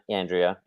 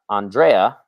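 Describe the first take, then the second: First: The name is said the American way. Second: The name is said in a non-American way. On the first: The speaker calls it wrong. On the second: The speaker calls it right.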